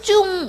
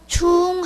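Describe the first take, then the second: First: The pitch of the syllable does not rise. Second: The pitch of the syllable rises. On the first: It means heavy or important. "일반적인 이런 많은 중자는" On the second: It means repeated or again. "이렇게 올라가는 듯한 이제 발음이 되는데"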